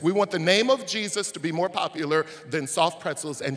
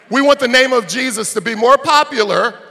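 First: Said in the usual way. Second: Higher and much louder, punching want; loud preaching. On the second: Acted. Pastor repeating his line to the crowd, now shouting.

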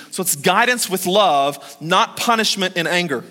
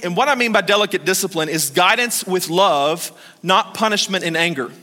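First: Emphatic repeat, guidance and not punched; stress on guidance and not. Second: Said in the usual way. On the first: Shown as a demonstration. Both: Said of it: "Let me say that again".

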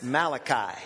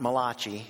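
First: "Malachi" said as MAL-uh-kye; "Malachi" stressed up front, final kye; correct pronunciation. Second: "Malachi" said as muh-LAH-chee; "Malachi" with a ch sound and final ee; wrong Italian-style pronunciation. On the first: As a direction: say "Malachi" with a k sound, ending like "eye". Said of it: "It's Malachi". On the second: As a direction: say "Malachi" like an Italian surname, stress on the middle. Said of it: "It's not written by an Italian". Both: Shown as a demonstration.

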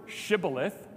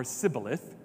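First: Shibboleth begun with SH; sh pronunciation. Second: Sibboleth begun with S; s pronunciation. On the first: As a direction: say shibboleth with a hushing sh at the start. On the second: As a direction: say sibboleth with a plain s at the start. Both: Shown as a demonstration. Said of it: "difference of how we pronounce".

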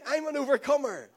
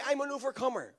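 First: Louder, firm declaration of "I'm an overcomer"; said like you mean it. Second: Said in the usual way. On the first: Shown as a demonstration. Preacher leading the church, loud confident confession. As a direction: proclaim "I'm an overcomer" with conviction. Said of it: "Say it like you mean it". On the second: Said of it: "everybody say".

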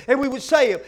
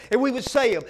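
Both takes have the same delivery.

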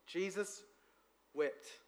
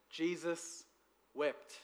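First: Jesus and wept said softer, as a mournful repeat; grieving reading. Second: Jesus and wept said slowly, each word alone with a pause between; slow solemn reading. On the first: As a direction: let "Jesus" hang, then a soft, sorrowful "wept". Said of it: "When God actually cried". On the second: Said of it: "the shortest verse in the Bible". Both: Shown as a demonstration.

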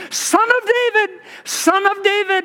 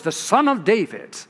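First: Much higher pleading call; crying out. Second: Said in the usual way. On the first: Retold or imitated. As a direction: cry out to be heard over the crowd. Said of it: "he cried out". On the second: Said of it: "One of the most common messianic titles".

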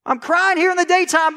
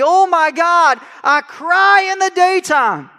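First: Pleading prayer. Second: Loud, slow anguished cry to God. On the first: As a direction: plead as if unheard. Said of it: "He says". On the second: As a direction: cry it out high and drawn. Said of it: "He's continuing". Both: Acted.

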